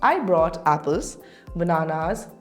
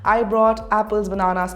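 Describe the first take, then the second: First: Short pauses separate each item in the list. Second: The items run together without pauses between them. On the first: The speaker calls it right. "if I read it with commas" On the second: The speaker calls it wrong. "if I read this sentence without commas"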